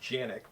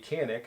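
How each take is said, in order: First: The name begins with a J sound. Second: The name begins with a hard K sound. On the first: The speaker calls it right. "I believe it's actually pronounced Janik" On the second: The speaker calls it wrong. "I'm sure I'm pronouncing that wrong"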